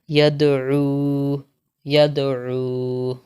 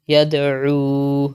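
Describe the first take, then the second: First: یدعو with the ساکن د bounced in a light echo; qalqala on dal. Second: Said in the usual way. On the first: Shown as a demonstration. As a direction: give the د in یدعو a small rebound. (یدعو میں دال پر قلقلہ) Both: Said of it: "تو یہاں پر ہم قلقلہ کریں گے".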